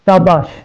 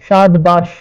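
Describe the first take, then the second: First: The d sound is dropped before the b. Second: A d sound is heard before the b. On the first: "हम मखरज जे करे फिरी थियो" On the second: "असुल लफ़्ज़ हो"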